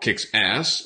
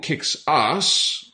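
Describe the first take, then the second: First: It is said in an American accent. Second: It is said in a British accent.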